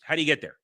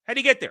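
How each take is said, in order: First: Said in the usual way. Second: Much higher, pushed exasperated repeat of How do you get there. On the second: Real, not acted. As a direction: fling the question up in disbelief. Repeated question, second escalates.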